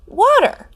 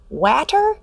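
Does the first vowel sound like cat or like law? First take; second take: law; cat. First: The first vowel sounds like the a in law. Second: The first vowel sounds like the a in cat. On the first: The speaker calls it right. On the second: The speaker calls it wrong. "sound out the word water by saying w, at, er"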